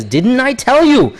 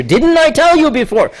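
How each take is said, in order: First: Said in the usual way. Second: "tell" pushed much higher with weight; added emphasis. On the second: Shown as a demonstration. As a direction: stress "tell" and lift the whole line high. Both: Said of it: "there's an added emphasis here".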